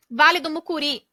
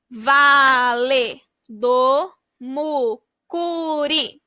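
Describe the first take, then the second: First: Said in the usual way. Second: Very slow, whispered "Vale do Mucuri", each syllable drawn out; slow stretched whisper. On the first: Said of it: "title read before syllables". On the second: Shown as a demonstration. Teacher models blending the word for kids, slow whisper. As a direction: breathe the words out slowly, syllable by syllable. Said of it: "blending syllables into the word".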